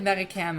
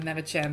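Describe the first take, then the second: First: The middle consonant is a hard k sound. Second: The middle consonant is a soft ch sound. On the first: The speaker calls it wrong. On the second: The speaker calls it right.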